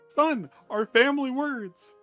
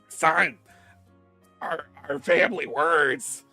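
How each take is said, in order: First: The voice is smooth, without a smoker's rasp. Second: The voice is raspy, like a smoker's.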